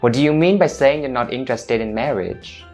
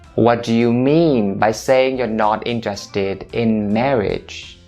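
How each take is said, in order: First: The sentence is said at normal, natural speed. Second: The sentence is said slowly and deliberately.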